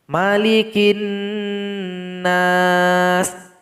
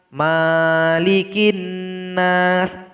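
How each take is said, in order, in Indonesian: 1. Vokal setelah m dibaca pendek. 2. Vokal setelah m dibaca panjang. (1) "maka dibaca pendek saja" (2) "Ada beberapa pembaca Al-Quran yang memanjangkan huruf mim"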